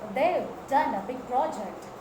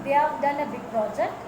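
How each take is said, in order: First: They have is shortened to one syllable. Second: They have is said as two full words. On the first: The speaker calls it right. "The contracted form of they have" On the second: The speaker calls it wrong. "Instead of saying"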